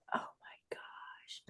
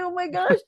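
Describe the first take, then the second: First: Slow breathless whisper of awe; awed whisper. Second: High squeaky oh my gosh; high starstruck gasp. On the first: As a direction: whisper it, starstruck, very slowly. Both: Retold or imitated. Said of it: "I was like".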